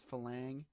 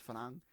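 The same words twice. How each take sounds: First: Falang said the American way, with a clear l; Americanised falang, l instead of r; American accent. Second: Farang with an r instead of an l; Thai pronunciation. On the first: To viewers, contrasting pronunciations: American-accent falang with an l. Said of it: "if you wanna talk in an American accent". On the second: To viewers, giving the correct word: farang with an r. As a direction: say farang with a proper r. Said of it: "but it's farang". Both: Shown as a demonstration.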